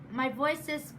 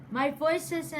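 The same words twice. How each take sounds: The two takes are said the same way.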